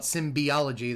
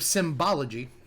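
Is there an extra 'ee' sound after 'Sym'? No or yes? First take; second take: yes; no. First: The word has an extra 'ee' vowel after 'Sym'. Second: The word has no extra vowel after 'Sym'. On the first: The speaker calls it wrong. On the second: The speaker calls it right.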